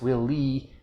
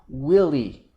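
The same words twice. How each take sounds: First: Both syllables carry equal stress. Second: The stress is clearly on the first syllable. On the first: It sounds like an echo of the words 'will lead'. The speaker calls it wrong. "she said both syllables with equal stress" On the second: It is clearly heard as a name. The speaker calls it right. "clear stress on the first syllable"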